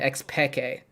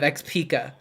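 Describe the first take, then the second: First: The name is said with a Spanish pronunciation. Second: The name is said with an English-style pronunciation. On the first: This is how the player himself says it. The speaker calls it right. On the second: This is how the audience commonly says it. The speaker calls it wrong.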